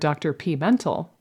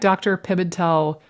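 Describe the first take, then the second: First: The name begins with a separate 'pee' sound. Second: The name begins with a short 'pim' sound.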